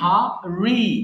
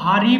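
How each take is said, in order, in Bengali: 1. r ধ্বনিটি স্পষ্ট ও যত্ন করে উচ্চারিত। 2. r ধ্বনিটি সহজ ও দ্রুত। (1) "আর এর উচ্চারণটাকে আরেকটু সুন্দর করে বলতে হবে" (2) "আমি কিন্তু হারি বলছি না"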